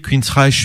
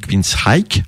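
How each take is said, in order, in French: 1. La fin se prononce avec un son sh. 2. La fin se prononce avec un son k. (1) "moi j'ai toujours prononcé" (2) "dans les pays anglo-saxons on dit"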